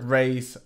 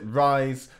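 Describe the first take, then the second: First: The word sounds like English 'raise'. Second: The word sounds like English 'rise'. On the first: "I call this trick raise" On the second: "Other people pronounce it rise"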